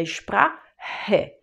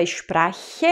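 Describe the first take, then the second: First: Sprache with a rasping ch like a throaty r; correct ch sound. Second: Sprache with a hard ch like "k"; wrong ch sound. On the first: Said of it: "é Sprache". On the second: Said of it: "Não é Sprache". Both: Shown as a demonstration.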